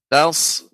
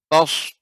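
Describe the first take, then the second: First: The first 't' is plain and light. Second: The first 't' is heavy and darkened. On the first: The speaker calls it right. "Jadi tetap pengucapannya taus" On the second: The speaker calls it wrong. "jangan sampai tos"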